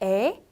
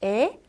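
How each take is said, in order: No difference in how they are said.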